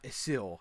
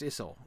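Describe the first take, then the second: First: The stress is on the second syllable. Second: The stress is on the first syllable. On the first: The speaker calls it wrong. "not Isil" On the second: The speaker calls it right. "is pronounced Isil"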